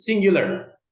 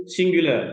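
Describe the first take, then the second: First: High, loud American "singular" with final R; American-style "singular", punched out higher and louder; American accent. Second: British "singular" with the final R dropped; British English "singular", open vowel ending; British accent. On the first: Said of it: "udah ke Amerika". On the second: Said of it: "udah ke British". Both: Shown as a demonstration.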